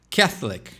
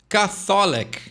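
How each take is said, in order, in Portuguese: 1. Ela é pronunciada do jeito inglês. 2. Ela é pronunciada como o português 'católico'.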